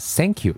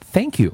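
First: It begins with an s-like sound instead of th. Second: It begins with a tongue-between-teeth th sound. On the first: The speaker calls it wrong. "我们读成Thank you" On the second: The speaker calls it right. "不会读成Thank you"

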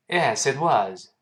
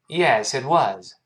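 Both takes have the same delivery.

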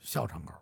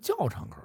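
First: The first syllable starts with an x sound. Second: The first syllable starts with a j sound. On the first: This is the local everyday name. "您不能管这叫校场口" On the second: This is the official spelled name. "是教场口。您看这胡同这是有拼音"

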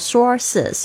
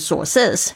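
First: The stress is on the first syllable. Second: The stress is on the second syllable. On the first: The speaker calls it right. "记得把那个前面的声音拉高" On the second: The speaker calls it wrong. "如果你念成sources 就有人会听不懂"

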